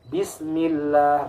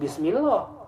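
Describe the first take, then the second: First: The lam is light with an 'a' vowel. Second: The lam is heavy with an 'o' vowel. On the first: The speaker calls it right. "bukan o tapi a" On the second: The speaker calls it wrong.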